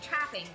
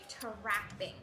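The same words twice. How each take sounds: First: The word is said plainly, without extra vowels. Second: The word is drawn out with an added vowel. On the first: "instead of saying trapping" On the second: "They do sneaky extra vowels between consonants. Like you draw a word out"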